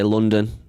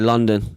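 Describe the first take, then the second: First: It is said in a Manchester accent. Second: It is said in a London accent. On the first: "I would say London" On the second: "them man would say London"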